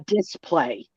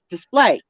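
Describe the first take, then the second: First: The stress is on the first syllable. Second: The stress is on the second syllable. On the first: The speaker calls it wrong. "not a display" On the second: The speaker calls it right. "You gotta put the emphasis on the second syllable of display"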